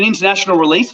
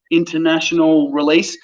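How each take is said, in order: First: Said in the usual way. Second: Writing it down. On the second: Retold or imitated. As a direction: sound out "international release" word by word, as if noting it. Writing down what the agent said.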